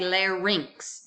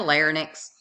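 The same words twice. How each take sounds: First: The ending sounds like 'rinks'. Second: The ending does not sound like 'rinks'. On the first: The speaker calls it right. "Y is pronounced as I, R I N X. Rinx" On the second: The speaker calls it wrong. "You don't have a larynx"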